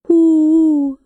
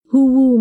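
First: High, loud hooting hoo-woo; creature call. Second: Said in the usual way. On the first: Retold or imitated. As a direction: hoot hoo-woo like an animal calling. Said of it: "Hoo-Woo made his noise". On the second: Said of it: "made his noise, hoo-woo".

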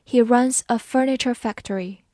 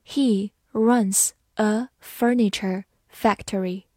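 First: Said in the usual way. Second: Slow, word by word; slow reading. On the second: Shown as a demonstration. English teacher models the furniture sentence for learners, slow reading. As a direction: read slowly with gaps between the words. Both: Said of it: "好，慢读一遍".

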